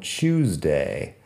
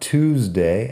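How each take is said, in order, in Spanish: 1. Empieza con un sonido parecido a 'ch', estilo británico. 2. Empieza con una 't' simple, estilo americano. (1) "como si hubiera una CH al principio. Eso es inglés británico" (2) "En inglés americano"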